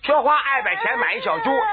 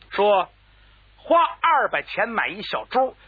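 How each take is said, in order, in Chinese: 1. 字音含糊，像是有大舌头。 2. 每个字都清楚利落，发音很到位。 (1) "要是嘴里有毛病，这可没法说，有咬舌、见舌、大舌头" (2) "干板剁字"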